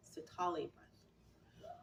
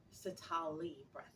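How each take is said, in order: First: Sitali breath whispered slowly, no voice; whispering. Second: Said in the usual way. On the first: Shown as a demonstration. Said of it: "repeats the name, then whispers it". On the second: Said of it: "repeats the name to teach it".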